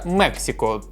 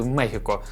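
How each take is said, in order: First: The middle consonant sounds like 'ks'. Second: The middle consonant sounds like 'h'. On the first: The speaker calls it wrong. "Наступна шаурма називається «Мексико»" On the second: The speaker calls it right. "правильно казати «Мехіко»"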